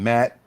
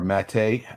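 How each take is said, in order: First: The vowel sounds like the one in 'cat'. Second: The vowel sounds like the one in 'gate'. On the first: The speaker calls it right. "Isn't it just Matt?" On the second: The speaker calls it wrong. "Some people I've heard people say Mate"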